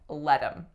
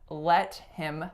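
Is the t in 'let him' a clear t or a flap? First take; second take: flap; clear t. First: The t is a quick flap. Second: The t is a clear, full stop.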